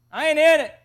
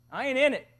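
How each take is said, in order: First: Louder, higher insistent disclaimer; emphatic refusal. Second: Said in the usual way. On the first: Retold or imitated. Boy washing his hands of his brother's secret, emphatic. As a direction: push it out loudly, wanting no part of it.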